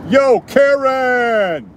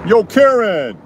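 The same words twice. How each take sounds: First: High, slow, drawn-out call; Karen call. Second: High, loud calling out; Karen call. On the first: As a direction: call long across the street. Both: Shown as a demonstration. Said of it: "That's my Karen call".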